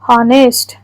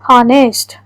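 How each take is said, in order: Both takes have the same delivery.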